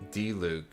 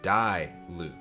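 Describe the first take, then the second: First: The first syllable sounds like dee. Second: The first syllable sounds like die. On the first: "I could spell D-Luke correctly" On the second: "when I instinctively see the spelling of the name, I go, oh, it's D I"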